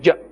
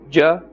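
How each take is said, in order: First: The syllable is jerked out abruptly. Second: The syllable is said smoothly and evenly. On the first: The speaker calls it wrong. "don't jerk the sound" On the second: The speaker calls it right. "In the normal manner"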